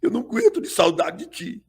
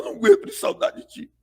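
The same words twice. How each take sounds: First: Said in the usual way. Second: High, fast fake-tearful wail; fake crying. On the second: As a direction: put on crocodile tears, pitched way up. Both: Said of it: "E aí começa a correr as lágrimas".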